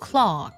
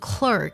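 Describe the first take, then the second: First: It is said with a British pronunciation. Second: It is said with an American pronunciation. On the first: "会把一二组合读作r 的音，那这样呢也是比较少见的" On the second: "美式的发音呢一二的组合呢读作r 的音"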